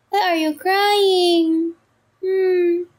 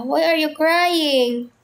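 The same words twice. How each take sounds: First: Slow, high, drawn-out pet talk. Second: Said in the usual way. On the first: Real, not acted. Asks crying cat Peanut again. (mabagal at matinis na baby talk sa pusa)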